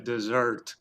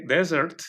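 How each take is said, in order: First: Dessert stressed des-SERT, as corrected; last-syllable stress. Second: Slow dessert, stressed DES-sert like desert; first-syllable stress. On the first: Retelling how guests corrected the word, last-syllable stress on dessert. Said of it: "ahí me corrigieron la cuestión del". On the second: Retelling the word guests misunderstood, first-syllable stress on dessert. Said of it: "agarraron para el lado del desierto". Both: Retold or imitated.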